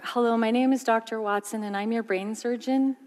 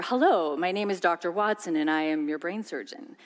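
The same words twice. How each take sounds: First: Brightly lilting, upward doctor intro; rising tone. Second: Reassuring doctor, voice stepping downward; falling tone. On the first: Doctor greets anxious patient, rising tone. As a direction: let the tone climb as if unsure of the job. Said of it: "Nobody wants to hear". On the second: Doctor calms a waiting patient, falling tone. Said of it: "when his tone of voice goes down". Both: Shown as a demonstration.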